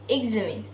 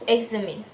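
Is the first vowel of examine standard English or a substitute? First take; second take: standard; substitute. First: The first vowel is the standard English one. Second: The first vowel is replaced by another vowel. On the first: The speaker calls it right. "In English, this word should be pronounced examine" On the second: The speaker calls it wrong. "the learners replace sound without which result in examine"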